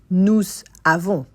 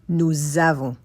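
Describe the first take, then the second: First: No z sound joins the two words. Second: A z sound joins the two words. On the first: The speaker calls it wrong. "You don't say" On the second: The speaker calls it right. "you say nous avons, Z"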